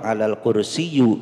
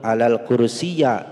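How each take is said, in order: First: The last word ends in an u sound. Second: The last word ends in an a sound. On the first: "Tidak boleh domah. Alal kursiyu itu salah" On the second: "itu salah"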